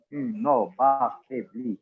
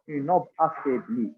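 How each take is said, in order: First: "une ombre affaiblie" slowed, syllable by syllable; counting syllables. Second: Said in the usual way. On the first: Shown as a demonstration. Student counting on fingers for the teacher, "une ombre affaiblie" slowly syllable by syllable. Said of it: "j'étais en train de les compter". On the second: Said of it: "lorsque je les ai lus".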